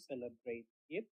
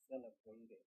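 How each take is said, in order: First: The two words are said separately. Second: The final t runs straight into 'it'. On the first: The speaker calls it wrong. "instead of saying celebrate it" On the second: The speaker calls it right. "say celebrate it"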